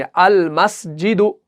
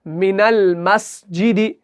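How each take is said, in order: First: अल मस्जिदु read slowly with the alif pronounced; alif sounded. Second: मिनल मस्जिदी read slowly, alif dropped; alif silent. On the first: Teacher contrasting अल मस्जिदु with मिनल मस्जिदी. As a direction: start अल मस्जिदु clearly on अल. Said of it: "तो हम अलिफ से इसको शुरू करेंगे". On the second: Teacher contrasting मिनल मस्जिदी with अल मस्जिदु. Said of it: "लेकिन अगर आएगा कोई हरफ तो". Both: Shown as a demonstration.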